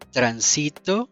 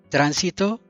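First: The stress is on the middle syllable. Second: The stress is on the first syllable.

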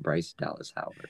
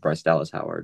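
First: The name is said as separate words. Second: The name is run together as one word. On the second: "The same way I pronounce Bryce Dallas Howard's name"

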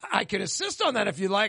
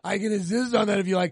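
First: It is said lightly, as a joke. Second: It is said in a creepy, leering way.

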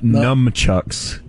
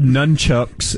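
First: The first syllable ends with an M sound. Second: The first syllable ends with an N sound. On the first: The speaker calls it wrong. "You thought there was an M in nunchucks?" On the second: The speaker calls it right. "they're called nunchucks"

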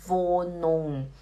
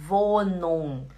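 The two takes are said the same way.

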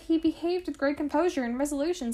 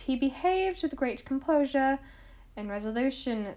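First: It is said in the speaker's normal accent. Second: It is said in a put-on, unusual accent.

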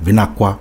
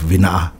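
First: The k sound is followed by a w. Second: The k sound in the middle is dropped. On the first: This is how other village dialects say it. "or even a W" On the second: This is how some village dialects say it. "some will take out the K"

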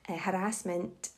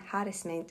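First: The stress is on the second syllable. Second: The stress is on the first syllable. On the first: This is the American pronunciation. "harassment is the American way" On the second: This is the older British pronunciation. "harassment is the Old English way"

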